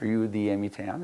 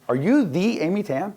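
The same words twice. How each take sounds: First: It is said plainly, with no special inflection. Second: It is said with a marked, emphatic inflection. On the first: "but just" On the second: "not with that inflection"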